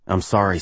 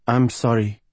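First: Understated apology in the narrator's own pitch; contrite player. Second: Higher-pitched woman's role voice; Gabriella. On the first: Rick says sorry to his coach, understated contrition. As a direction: apologize plainly, with a falling end. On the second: Cheerless singer apologizes to Rick, higher regretful voice. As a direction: apologize in a raised, put-on woman's voice. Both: Acted.

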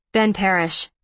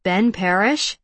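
First: "Ben Parrish" falling, as a statement; matter-of-fact introduction. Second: "Ben Parrish" rising at the end; questioning echo. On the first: Ben introduces himself to Evan, "Ben Parrish" falling. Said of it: "Ben says". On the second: Evan checks the name he heard, "Ben Parrish" rising. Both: A narrator's reading.

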